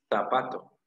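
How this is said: The z is pronounced like a th. This is how it is said in Spain. "en España dicen zapato, zapato, zapato con Z"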